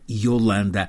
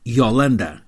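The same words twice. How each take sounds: First: The first vowel is closed. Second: The first vowel is open. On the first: This is the usual pronunciation in Portugal. "Em Portugal chamam-lhe quase sempre" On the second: This is the pronunciation she prefers, as Brazilians say it. "com o O inicial aberto, assim a dar"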